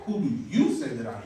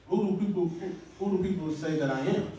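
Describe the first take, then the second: First: "you" punched as a correction; acted pointed question, "you" stressed, falling at the end. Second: "who do people say that I am" as a general question; acted question, rising at the end on "am"; question about PEOPLE. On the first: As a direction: turn the question on them, leaning on "you". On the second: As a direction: ask it openly, "people" unpunched. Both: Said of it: "But he's like, No".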